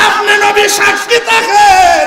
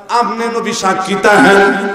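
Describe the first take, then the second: First: High, slow shouted chant; impassioned cry. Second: Said in the usual way. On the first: Retold or imitated. Mother asking the Prophet to bear witness, high drawn-out cry. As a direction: cry it out, stretching the last word. Same words cried out.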